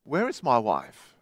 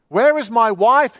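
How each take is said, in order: First: Low, soft, despairing cry. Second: Loud, high scream of a question. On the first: Lost man asks again for his wife, in a low, soft despairing cry. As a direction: call out quietly, already losing hope. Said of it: "Again he cried". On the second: Lost man screams for his wife, loud and high. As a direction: scream it into the darkness. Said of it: "he screamed". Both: A narrator's reading.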